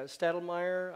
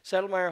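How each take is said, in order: First: A t sound follows the opening s. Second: No t sound follows the opening s. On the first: The speaker calls it wrong. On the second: The speaker calls it right.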